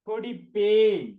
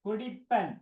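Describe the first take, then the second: First: The word ends in a long 'en' sound. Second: The word ends in a short 'an' sound. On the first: This is the formal written form. The speaker calls it right. "குடிப்பேன் இப்படி எழுதணும்" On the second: This is the everyday spoken form. The speaker calls it wrong. "குடிப்பன் இது பேச்சு வழக்கு"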